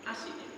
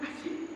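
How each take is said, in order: First: It sounds like a neutral, polite question. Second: It sounds mocking and insulting.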